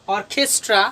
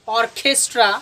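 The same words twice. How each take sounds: No difference in how they are said.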